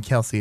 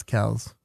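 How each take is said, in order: First: Kelsey said with two syllables, "KEL-see"; the mistaken two-syllable Kelsey, "KEL-see"; mispronounced name. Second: Kells as one syllable, rhyming with "bells"; one-syllable Kells, dropped softer as the correction; corrected pronunciation. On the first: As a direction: say Kelsey with an "ee" ending. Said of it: "have been mispronouncing his name". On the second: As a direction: say Kells with no "ee" at the end. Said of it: "It's not Kelsey". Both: Shown as a demonstration.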